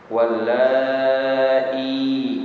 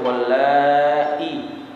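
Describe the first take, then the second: First: The vowel in the word is drawn out long. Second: The vowel in the word is kept short. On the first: "panjang ya" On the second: "enggak panjang"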